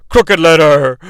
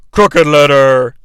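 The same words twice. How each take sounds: First: First drawled Crooked Letter; Crooked Letter with a Southern twang. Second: Crooked Letter stretched slow and low; Crooked Letter drawn out slow and low; slower drawl. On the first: Mock ring announcer calling Crooked Letter. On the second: Repeating the wrestler's name, slow and low. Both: Shown as a demonstration.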